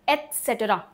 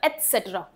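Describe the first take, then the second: First: Said in the usual way. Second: एटसेटरा with the त said very lightly; soft t. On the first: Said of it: "क्या बोलते हैं इसको". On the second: Shown as a demonstration. Teacher shows the soft t in एटसेटरा. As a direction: say एटसेटरा, barely touching the t. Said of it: "त बहुत ही धीरे से बोला जाता है".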